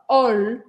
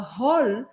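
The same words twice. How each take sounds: First: The word starts without any h sound. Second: The word starts with an audible h sound. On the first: The speaker calls it right. "porque os franceses nunca pronunciam H" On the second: The speaker calls it wrong. "A gente não fala hall"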